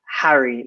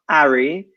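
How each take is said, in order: First: The word begins with an audible h sound. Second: The word begins with no h sound. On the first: The speaker calls it right. "that's considered still a consonant. So we pronounce it Harry" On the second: The speaker calls it wrong. "not Ari"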